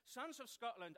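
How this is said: It is said in the speaker's natural English accent. "I'm just going to speak in English"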